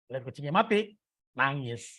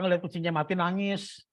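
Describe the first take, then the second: First: The pause comes after 'mati', separating 'nangis'. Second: The pause comes after 'ngeliat', grouping 'mati nangis'. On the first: The people cry on seeing the cat dead. "Padahal maksudnya" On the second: The dead cat is the one crying. "yang dia maksudnya itu"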